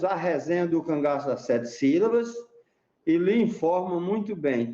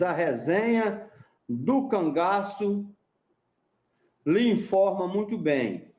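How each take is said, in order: First: Said in the usual way. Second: Slow, spaced-out recital of the verse; reciting a mote. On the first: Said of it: "você tem um mote, né, com dois versos". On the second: Shown as a demonstration. Explaining a mote to the interviewer, slow deliberate recital. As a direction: lay out each word of the mote slowly. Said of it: "Por exemplo, você diz".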